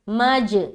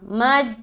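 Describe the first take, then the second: First: The final j bounces with an echoing release. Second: The final j stops flat without a bounce. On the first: The speaker calls it right. "मज ये सही है" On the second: The speaker calls it wrong. "मज गलत होगा"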